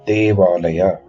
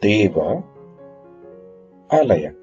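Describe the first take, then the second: First: The words merge into one without a gap. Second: Two words are said with a small gap. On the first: "two words joined together without a gap" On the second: "there is a small time gap"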